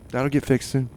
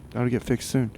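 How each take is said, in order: Both takes have the same delivery.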